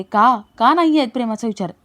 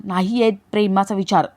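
First: Demanding question. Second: Said in the usual way. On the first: Acted. Kavya questions Jiva about their love, mildly demanding. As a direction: throw the denial back as a pressing "का?". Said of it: "Kavya विचारते". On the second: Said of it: "जीवा म्हणतो".

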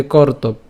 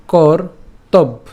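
First: "কর্তব্য" as one unbroken word; said directly. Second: "কর্তব্য" split slowly into কর and তব্; broken up. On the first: Teacher showing the direct way, unbroken word. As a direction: run "কর্তব্য" together without splitting it. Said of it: "সরাসরি হচ্ছে এভাবে বলতে পারি". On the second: Teacher breaking the word for learners, slow split demo. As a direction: pause inside "কর্তব্য", part by part. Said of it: "তা আমরা এত না ভেঙে". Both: Shown as a demonstration.

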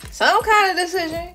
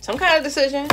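First: "Some" pitched up and leaned on; emphatic repeat. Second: Said in the usual way. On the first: Real, not acted. Reader telling Aquarius they have choices, emphatic on "Some". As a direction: punch "Some" higher, then let "decision" follow.

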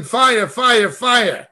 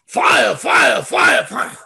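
First: Mildly voiced fire chant, barely raised; understated mock revival cry; mock yelling. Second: Rising to a higher, shouted fire, then dropping off; half-mocking shout that fades out. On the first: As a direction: imitate a preacher crying fire, held back. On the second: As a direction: ham up a revival preacher crying fire. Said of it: "there's videos".

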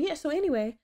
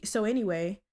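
First: Higher, imitating someone sounding genuine; as genuine as possible. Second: Said in the usual way. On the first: Someone changing the subject on her, imitated as genuine. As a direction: lift the pitch, mock-sincere brush-off. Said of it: "in the most genuine p-, way possible".

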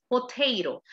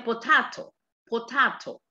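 First: "potato" with AY and a flapped T, "po-TAY-ro"; American pronunciation. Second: "potato" with a broad A, "po-tah-to"; British pronunciation. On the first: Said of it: "en el inglés americano". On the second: Teacher showing British English, "potato" with AH. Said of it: "El inglés británico". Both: Shown as a demonstration.

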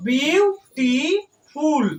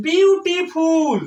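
First: beautiful very slowly, chopped into বিউ, টি, ফুল; full stop after each syllable of beautiful; teacher separating beautiful into three isolated pieces; broken with pauses. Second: beautiful slowly drawn out in three beats, barely pausing; slow, measured beautiful with each syllable held. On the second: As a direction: stretch বিউ-টি-ফুল as three linked parts. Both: Shown as a demonstration. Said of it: "তিনটা ভাগ".

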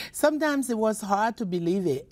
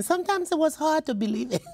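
First: Said in the usual way. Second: High, quick and laughing; half-laughing. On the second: Real, not acted. Author to interviewer about wartime faith, rising into laughter. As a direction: toss it off with a rueful laugh.

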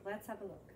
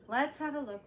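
First: Soft and low; quiet. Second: Said in the usual way. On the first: Acted. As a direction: say it under your breath.

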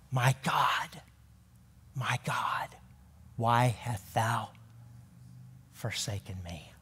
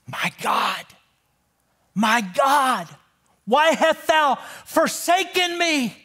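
First: Hushed whisper, lower and much softer, fading to nothing; whispered quote. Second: Higher, rising cry of anguish building to forsaken. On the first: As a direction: whisper it as a broken, spent prayer. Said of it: "as he quotes Psalm twenty-two". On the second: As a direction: call it out in anguish, climbing. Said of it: "Jesus cried out". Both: Retold or imitated.

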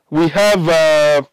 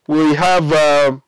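No difference in how they are said.

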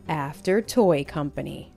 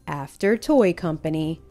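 Both takes have the same delivery.

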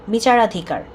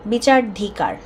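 No difference in how they are said.

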